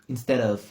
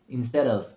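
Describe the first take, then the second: Both takes have the same delivery.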